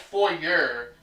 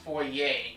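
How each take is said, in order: First: The word is said the way it is spelled. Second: The word is said with a French-style pronunciation. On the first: "It's spelled like foyer" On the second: "but it's pronounced foyer. ... It must be like some French pronunciation"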